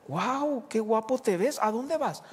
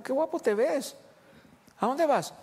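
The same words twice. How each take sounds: First: High, bright admiring wow; delighted surprise. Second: High, admiring wow again; delighted surprise. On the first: Wife amazed to see husband in a suit. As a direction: sound pleasantly amazed. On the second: Wife repeats her amazed question to husband. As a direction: sound thrilled and curious. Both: Retold or imitated.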